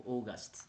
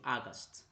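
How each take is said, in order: First: August begun with a rounded "oh", OH-gast; August with OH start. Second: August begun with an open "ah", AH-gast; August with AH start. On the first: Tutor offering the other pronunciation, August as OH-gast. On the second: Tutor unsure how to pronounce the month, August as AH-gast. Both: Shown as a demonstration. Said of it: "I don't know how to pronounce this one".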